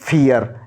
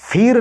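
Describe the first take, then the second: First: The vowel glides from 'ee' to 'uh' before r. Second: The vowel is a short 'i' straight into r. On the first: The speaker calls it right. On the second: The speaker calls it wrong. "फिर नहीं"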